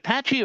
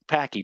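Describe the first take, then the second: First: The middle consonant is a ch sound. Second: The middle consonant is a k sound.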